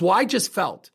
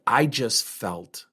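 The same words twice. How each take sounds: First: Quick upset blurt; flustered friend. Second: Very slow, stalled and lower; hesitant trailing off. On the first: Friend blurting out to the speaker, upset. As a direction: blurt it out, all feeling. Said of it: "She goes". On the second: Friend stalling when asked to stay calm, slow and hesitant. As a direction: she stops and can't find the words. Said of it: "She stops and she said". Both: Retold or imitated.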